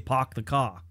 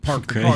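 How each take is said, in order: First: The R sounds are dropped, Boston style. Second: The R sounds are clearly pronounced. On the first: "they say park the car. I'm horrible at accents" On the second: "Instead of saying"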